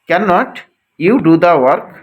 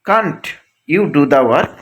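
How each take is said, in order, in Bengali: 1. নেগেটিভটি আলাদা দুটি শব্দ হিসেবে বলা হয়। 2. নেগেটিভটি সংকুচিত হয়ে একটি সিলেবলে বলা হয়।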